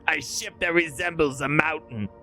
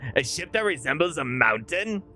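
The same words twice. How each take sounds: First: It is said with a flat, statement-like tune. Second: It is said with a questioning tune at the end. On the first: The speaker calls it wrong. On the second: The speaker calls it right.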